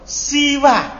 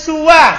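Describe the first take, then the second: First: The first syllable has an i vowel. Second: The first syllable has a u vowel. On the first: "dan huruf sinnya di kasro" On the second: "tapi di domasinnya"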